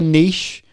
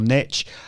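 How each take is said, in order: First: Niche is said the British way. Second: Niche is said the American way.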